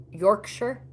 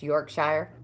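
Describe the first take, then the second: First: Yorkshire ending in an unstressed "sher", rising as a question; questioning -sher pronunciation. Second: Yorkshire with the ending as a full "shire", rhyming with fire. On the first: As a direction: try out Yorkshire as "York-sher?". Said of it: "Is it Yorkshire?". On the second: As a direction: say Yorkshire slowly, ending in a long "shy-er". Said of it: "it's not pronounced Yorkshire". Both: Shown as a demonstration.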